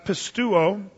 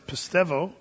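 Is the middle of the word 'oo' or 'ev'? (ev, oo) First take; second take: oo; ev. First: The middle sounds like 'oo', no v sound. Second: The middle sounds like 'ev', with a v sound. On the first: This is how it was said in ancient times. "That's the old pronunciation" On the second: This is how it is said today. "The modern is pistevo"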